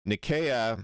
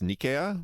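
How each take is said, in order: First: Nicaea said "nih-KAY-uh"; hard k in Nicaea, stress on KAY; Greek-style pronunciation. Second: Nicaea as "NEE-kay-uh"; stress on first syllable. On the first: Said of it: "the Greek pronunciation is the correct". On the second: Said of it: "with stress on the first syllable". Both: Shown as a demonstration.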